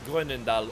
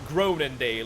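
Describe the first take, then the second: First: The name is pronounced the French way. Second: The name is pronounced the American English way. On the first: "I think the French would call it like" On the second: "the English American pronunciation would be like"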